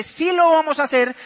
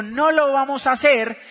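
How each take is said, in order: First: Higher-pitched emphatic retort; acted insistence. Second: Firm retort; acted refusal. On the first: Wife repeats her demand to husband, higher and insistent. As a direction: push back hard on Sí. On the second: Husband repeats his refusal to wife, firm. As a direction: stand ground on No.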